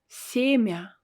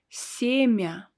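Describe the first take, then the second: The two takes are said the same way.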